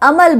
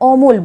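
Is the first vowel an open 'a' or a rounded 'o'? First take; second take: open a; rounded o. First: The first vowel is an open 'a'. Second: The first vowel is a rounded 'o'. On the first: The speaker calls it wrong. "আমরা আমল বলি না" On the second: The speaker calls it right. "অমল বলি"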